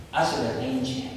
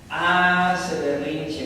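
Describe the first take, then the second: First: Said in the usual way. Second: "Hace berrinche" dicho muy despacio, sílaba por sílaba; slow emphatic repeat. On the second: Shown as a demonstration. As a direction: stretch out "Hace berrinche" slowly for effect. ("Hace berrinche" muy lento y marcado)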